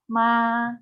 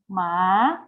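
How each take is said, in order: First: The pitch stays high and level throughout. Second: The pitch rises from middle to high. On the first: "let's practice the first tone with different initials" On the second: "Second tone is a raising tone"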